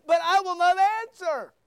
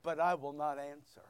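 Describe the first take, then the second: First: Booming verse. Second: Quiet reading. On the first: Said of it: "Notice verse twenty-eight". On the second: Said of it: "Look at verse twenty-eight". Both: Shown as a demonstration.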